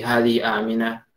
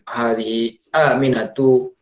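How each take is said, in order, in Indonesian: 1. Kata terakhir berhenti tanpa harakat vokal di akhir. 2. Kata terakhir berakhir dengan harakat vokal penuhnya. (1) "mereka ya sukun-sukun saja ujung-ujungnya" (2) "usahakan harokat ini dibaca"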